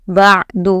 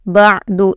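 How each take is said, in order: No difference in how they are said.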